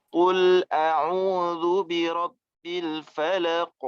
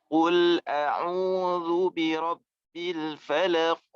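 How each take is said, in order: Both takes have the same delivery.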